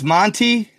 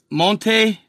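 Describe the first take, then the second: First: Monte said as "MON-tee"; plain English "MON-tee" for Monte; anglicised Monte. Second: Monte said as "MON-tay"; Spanish-style Monte. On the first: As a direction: end Monte on an "ee" sound. Name restated in simple English reading. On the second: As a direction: end Monte on an "ay" sound. Place name first in Spanish fashion. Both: Shown as a demonstration.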